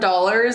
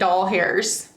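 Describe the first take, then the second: First: The word sounds like a plain 'dollars'. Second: The word sounds like 'doll hairs'. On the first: "instead of dollars" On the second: "I say doll hairs"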